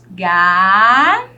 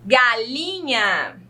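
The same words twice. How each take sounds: First: "Galinha" as three long, separate syllables; split into syllables. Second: Said in the usual way. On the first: Shown as a demonstration. Teacher counting syllables with pupils, "Galinha" slowly split. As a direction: hold each syllable of "Galinha", with long silences between. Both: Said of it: "Vamos separar ela em sílaba".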